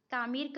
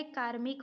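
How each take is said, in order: First: कामिर्क with the "r" after "mi", kaamirk; wrong pronunciation. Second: कार्मिक with the "r" before "m", kaarmik; correct pronunciation. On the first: Teacher rejecting a misspelling, कामिर्क said as "kaamirk". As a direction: shift the "r" in कामिर्क to before the final "k". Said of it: "नहीं होता है". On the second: Teacher giving the correct word, कार्मिक as "kaarmik". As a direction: sound the "r" of कार्मिक right after "kaa". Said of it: "होता है". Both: Shown as a demonstration.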